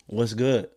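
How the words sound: It sounds aggressive, like a fight is coming.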